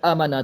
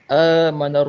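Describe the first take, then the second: First: The long vowel is cut short. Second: The long vowel is held for a normal length. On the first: The speaker calls it wrong. "Kalau kurang tak ada harakat, amana terus" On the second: The speaker calls it right. "Kalau normal kita baca dengan, dengan dua harakat"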